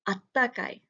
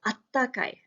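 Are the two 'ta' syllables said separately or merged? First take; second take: merged; merged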